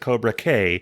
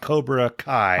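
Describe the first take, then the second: First: The second word rhymes with 'day'. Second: The second word rhymes with 'eye'. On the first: The speaker calls it wrong. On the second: The speaker calls it right.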